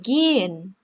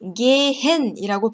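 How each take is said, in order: First: The h is silent and the vowel long. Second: The middle h is clearly pronounced. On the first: The speaker calls it right. "이렇게 발음되고요" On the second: The speaker calls it wrong. "발음하는 게 아니라"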